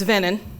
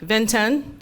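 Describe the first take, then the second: First: The middle T sound is dropped entirely. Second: The middle T sound is strongly pronounced. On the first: "Others just completely leave it out altogether" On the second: "Some people have a strong emphasis on that T"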